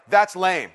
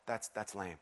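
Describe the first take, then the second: First: Firm, dismissive that's lame; with conviction. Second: Barely voiced, much softer and lower, no conviction; limp, half-hearted that's lame. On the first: Pastor shows the crowd how, firm dismissive delivery. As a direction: say it like you mean it. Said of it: "I want you to say it like". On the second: Pastor demos the weak way, lifeless mutter. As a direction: mumble it like you don't care. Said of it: "meaning not like". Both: Shown as a demonstration.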